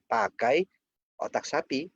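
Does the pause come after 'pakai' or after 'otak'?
after pakai. There is a pause right after 'pakai'. The dish is made with cow brain. The speaker calls it right. "Jawabnya harus pakai pakai jedanya di sini"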